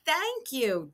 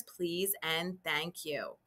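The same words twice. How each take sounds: First: Said in the usual way. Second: Softer, slower thank you; gentle polite thank you. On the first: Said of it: "And I say". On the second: Shown as a demonstration. Teacher models polite manners for kindergarteners, gently. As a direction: say thank you kindly and slowly. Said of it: "Don't forget those manners".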